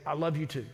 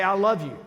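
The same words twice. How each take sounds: First: Said in the usual way. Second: Higher, louder heartfelt declaration; imitating the son's joyful greeting; eager young man. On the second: The son telling his pastor he loves him, raised and loud.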